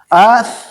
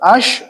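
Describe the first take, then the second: First: The word ends with a soft th sound. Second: The word ends with an s sound. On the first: The speaker calls it right. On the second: The speaker calls it wrong.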